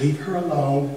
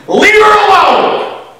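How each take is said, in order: First: It is said calmly, without emotion. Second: It is said with strong emotion.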